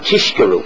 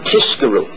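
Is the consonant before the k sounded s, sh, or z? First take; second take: sh; s. First: The consonant before the k is a sh sound. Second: The consonant before the k is an s sound. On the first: It sounds like the word for falsehood. "they shouldn't sound Tishkeru. Right? A Sheker" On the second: It sounds like the word for closing up. "it shouldn't sound Tizkeru with a Samach"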